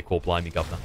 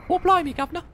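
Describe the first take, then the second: First: Low, understated British catchphrase; British accent. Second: Very high-pitched cartoon British; mock British accent. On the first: Explaining how people fake a British accent, understated. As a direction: toss off the British cliché quietly. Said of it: "that's how you do a British accent". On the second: Teaching co-caster a British accent, cartoonishly high. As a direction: squeak out a caricature British accent. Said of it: "you just have to repeat after me". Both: Shown as a demonstration.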